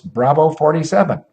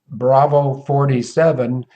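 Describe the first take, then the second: First: It is spoken very fast. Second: It is spoken very slowly. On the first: "I would also speak very quickly" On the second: "let me slow it down as if I just took a doggy downer"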